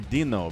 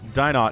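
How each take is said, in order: First: The name is said the French way. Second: The name is said the English way. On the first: The speaker calls it wrong. "that's like the French pronunciation of those letters" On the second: The speaker calls it right. "Dynot is what we're going to roll with here"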